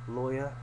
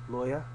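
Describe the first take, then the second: Both takes have the same delivery.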